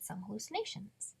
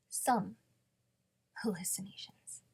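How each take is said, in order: First: Said in the usual way. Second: SOME set apart and leaned on, then a pause before "hallucinations"; wry emphatic repeat. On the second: Acted. Repeating Jody's understatement to the listener, wry stress on SOME.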